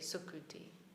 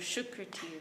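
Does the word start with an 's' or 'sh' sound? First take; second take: s; sh. First: It starts with a Vrindavan-style 's' sound. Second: It starts with a Bengali 'sh' sound.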